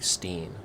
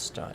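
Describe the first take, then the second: First: The vowel is pronounced like 'ee'. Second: The vowel is pronounced like 'eye'. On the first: The speaker calls it wrong. "Not like Steen" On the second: The speaker calls it right. "It's Stein"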